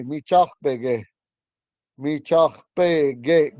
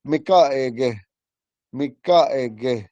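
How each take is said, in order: First: "Mi chachpege" slowly, with rough "ch" before "pe"; old way. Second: "Mikaege" smoothed, no rough "ch" or "p"; modern way. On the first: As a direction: draw out "Mi chachpege", syllable by syllable. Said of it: "the old way they say". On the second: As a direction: say "Mikaege" as mee-kah-eh-geh. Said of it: "Now we say". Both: Shown as a demonstration.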